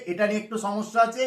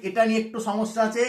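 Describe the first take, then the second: No difference in how they are said.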